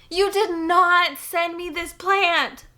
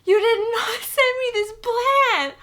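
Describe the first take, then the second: First: Slow, high, loud exclaiming; savoring each word in shock; disbelief. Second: Much higher, slow, laughing through it; giddy overwhelmed gasp; laughing disbelief. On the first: Disbelief at gift. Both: Real, not acted.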